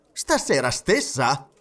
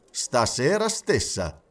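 First: Slow, incredulous query; surprised question. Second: Slow, matter-of-fact statement; composed confirmation. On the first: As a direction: ask it as if unable to believe it. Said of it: "domandò Stewart". (domanda incredula) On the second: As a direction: confirm it calmly and deliberately. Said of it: "soggiunse il signor Fogg". (conferma pacata) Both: A narrator's reading.

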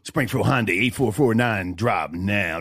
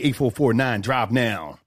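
First: Low, slow radio announcer read. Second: Radio voice. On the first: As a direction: say it like a radio ad, slowly. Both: Shown as a demonstration. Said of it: "That's my radio voice".

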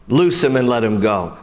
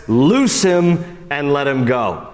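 First: Said in the usual way. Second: Slow, grave proclamation; Jesus freeing Lazarus, slow solemn command. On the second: Acted. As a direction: give the order with weight. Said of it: "Jesus says".

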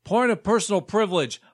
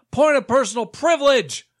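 First: Said in the usual way. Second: Said louder, pressing the point; insistent and louder the second time; louder insistent repeat. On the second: Acted.

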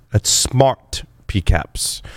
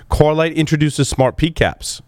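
First: Slow and deliberate, each word clear; slow, careful correction. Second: Said in the usual way. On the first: Shown as a demonstration. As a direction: spell it out slowly.

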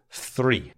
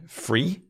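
First: Said in the usual way. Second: "free" with an F, standing for three. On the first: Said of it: "instead of three". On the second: Shown as a demonstration. Teacher showing learners the sound change, "free" with F replacing TH. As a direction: start "free" on F instead of TH. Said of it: "made the F sound instead".

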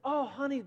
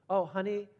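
First: Put-on high, lifting praise for a child; light up with proud-dad delight; proud dad beginning to praise the drawing. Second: Level, picky "Oh, honey," said as a criticising parent; critical parent. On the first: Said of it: "I said". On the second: Pretend. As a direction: start sizing up the drawing's faults. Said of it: "what am I doing now? Now I'm being critical".

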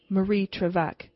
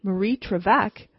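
First: Said in the usual way. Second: Marie Trevec with a rising, startled question tune on Trevec; surprised question. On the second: Acted. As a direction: repeat Marie Trevec in disbelief, rising at the end. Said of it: "What?" I exclaimed".

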